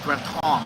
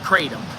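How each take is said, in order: First: The word is pronounced the way Thai speakers say it. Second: The word is pronounced in a non-Thai way. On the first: The speaker calls it right. "That's how Thai people say it" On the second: The speaker calls it wrong. "It's not kratom"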